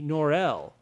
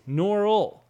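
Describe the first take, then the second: First: The name is pronounced a French-sounding way. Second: The name is pronounced the plain English way. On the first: The speaker calls it wrong. "not a Frenchie" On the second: The speaker calls it right. "It's like this"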